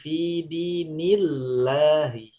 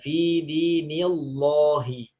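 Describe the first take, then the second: First: The L in Allah is pronounced thin. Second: The L in Allah is pronounced thick. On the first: The speaker calls it right. "tapi ... menjadi tipis" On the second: The speaker calls it wrong.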